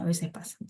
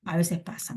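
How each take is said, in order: First: Whispered aside to herself. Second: Said in the usual way. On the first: Real, not acted. Teacher whispering the same words to herself. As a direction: breathe it out, unvoiced. Repeats it under her breath.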